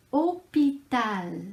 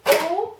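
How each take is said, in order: First: Said in the usual way. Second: "Hôpital" loud and high, in three isolated beats; long pause after each syllable of "Hôpital". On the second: Shown as a demonstration. Teacher asking how many syllables, syllable by syllable. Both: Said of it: "Combien de syllabes".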